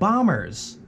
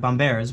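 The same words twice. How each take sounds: First: It sounds like the English word bombers. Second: It sounds different from the English word bombers. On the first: The speaker calls it wrong. "I'm pronouncing it wrong" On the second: The speaker calls it right. "It's like bombers"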